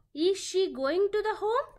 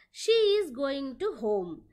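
First: "Is she going to the home" as a question, voice raised towards "home"; rising question intonation. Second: "She is going to home" with pitch falling towards "home"; falling statement intonation. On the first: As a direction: ask it, lifting the pitch on "home" at the end. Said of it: "end of the sentence is raising the voice". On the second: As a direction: declare "She is going to home", lowering the voice at the end. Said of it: "pitch may fall towards the end". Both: Shown as a demonstration.

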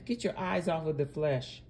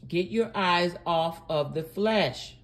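First: Said in the usual way. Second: "Get your eyes off of the flesh" slowed and firmly spaced; slower, firmer "eyes off of the flesh"; deliberate repeat. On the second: Real, not acted. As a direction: give each word of "Get your eyes off of the flesh" its own weight. Repeats instruction for emphasis.

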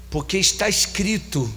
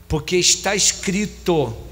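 No difference in how they are said.

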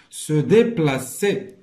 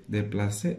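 First: "déplacer" drawn out, every syllable separate; slow dictation model. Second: Said in the usual way. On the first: Shown as a demonstration. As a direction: sound out "déplacer" slowly and firmly for learners. Dictation model, then plain repeat. ("déplacer" مقطّعة بشوية بحال الإملاء)

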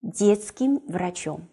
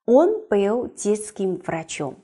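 First: Slow, stressed repeat of the noun phrase; stressed key phrase. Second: Он был детским врачом, each word laid out slowly; slow model sentence. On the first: Teacher repeats Детским врачом slowly for students to spot the case. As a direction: lean on Детским врачом to mark it. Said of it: "看看里面的第五格出现在哪部分". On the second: Teacher reads the example slowly for the class. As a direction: read slowly and evenly as a model. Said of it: "大家眼睛找一下". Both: Shown as a demonstration.

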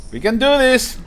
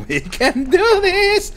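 First: Said in the usual way. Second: Slow, very high-pitched voice; playful pep talk. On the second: Pretend. Gamer psyching himself up with the jetpack, playful pep talk. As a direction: stretch it out high and squeaky.

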